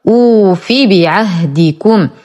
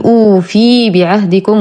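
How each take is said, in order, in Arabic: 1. الحركة بعد الفاء قصيرة. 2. الحركة بعد الفاء ممدودة. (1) "كسرة فاء فقط بدون مد" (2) "فلا أقول أوفي بعهدكم وهذا خطأ"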